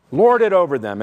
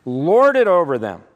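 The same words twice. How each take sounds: First: Loud reading, LORD hit hard; forceful scripture quote. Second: "Lord" very loud and stretched, then falling; emphasis coming down. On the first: Preacher quoting Jesus on Gentile rulers, forceful. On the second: Preacher showing rulers bearing down, heavy emphasis on "Lord". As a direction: bear down heavily on "Lord". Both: Shown as a demonstration. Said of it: "the emphasis is on coming down".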